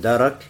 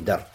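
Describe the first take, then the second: First: A vowel sounds between the r and k. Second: No vowel sounds between the r and k. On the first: "В первом варианте «ра» с фатхой" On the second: "во втором с сукуном"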